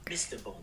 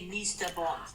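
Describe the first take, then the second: First: The first vowel is a short, lax 'i'. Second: The first vowel is a long, tense 'ee'. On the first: "not Mister Bond" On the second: "They always say Mister Bond"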